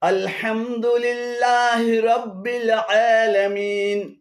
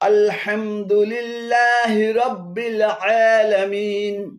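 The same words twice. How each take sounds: The two takes are said the same way.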